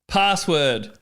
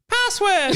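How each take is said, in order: First: It is said in a normal voice. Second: It is said in a squeaky, high voice.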